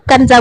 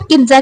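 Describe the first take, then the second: First: The first vowel is an 'a' sound. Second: The first vowel is an 'i' sound. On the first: The speaker calls it right. "कंजा बुलाइए" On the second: The speaker calls it wrong. "किन्जा की बजाय"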